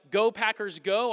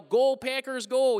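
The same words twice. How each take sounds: First: Put-on plain "Go Packers, go" cheered in a standard accent; usual cheer. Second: Put-on louder "Go Packers, go" with a Wisconsin accent and rounded long o vowels; Wisconsin-accented cheer. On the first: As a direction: normal yell of "Go Packers". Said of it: "instead of yelling". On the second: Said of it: "I'd yell".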